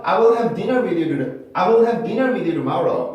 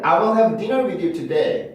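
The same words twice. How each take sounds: First: "tomorrow" joined to "you" with a tapped T; flapped T in tomorrow. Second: "today" with a clear, unflapped T; T kept in today. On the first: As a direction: say "you tomorrow" like "you-duh-morrow". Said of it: "이렇게 tomorrow는 발음을". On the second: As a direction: sound the T of "today" fully after "you". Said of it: "T 발음을 살려서". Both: Shown as a demonstration.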